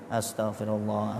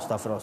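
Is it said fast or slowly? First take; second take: slowly; fast. First: It is said slowly and relaxed. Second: It is said fast and rushed.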